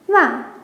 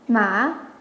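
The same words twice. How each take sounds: First: The syllable carries the fourth tone. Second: The syllable carries the third tone. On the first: "and fourth"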